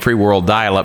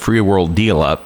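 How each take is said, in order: First: The last word sounds like 'dial-up'. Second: The last word sounds like 'deal-up'. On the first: The speaker calls it right. "It's supposed to be saying free world dial-up" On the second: The speaker calls it wrong. "It's saying free world deal-up"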